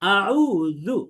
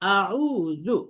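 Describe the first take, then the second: First: The middle consonant is a soft th-like sound. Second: The same.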